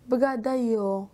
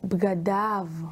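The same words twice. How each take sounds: First: The word ends with a non-'av' sound. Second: The word ends with an 'av' sound. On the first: The speaker calls it wrong. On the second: The speaker calls it right.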